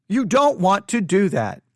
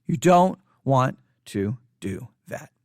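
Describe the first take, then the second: First: Said in the usual way. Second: Low whispery words, slowly spaced out; hushed warning. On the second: Real, not acted. Cautioning pastors against downplaying the virus, hushed warning. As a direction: sink low and separate every word.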